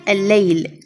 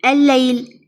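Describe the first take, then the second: First: الليل with a held double lam and a falling close; doubled lam. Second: Said in the usual way. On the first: Shown as a demonstration. Teacher showing pupils how الليل is written, stressing the doubled lam. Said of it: "تصير دبل لام". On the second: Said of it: "شلون تصير؟".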